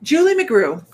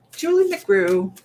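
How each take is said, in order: First: Said in the usual way. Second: Slow, stretched-out "Julie McGrew"; drawn-out name. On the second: Shown as a demonstration. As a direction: savour each syllable of "Julie McGrew". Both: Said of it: "this actually is for".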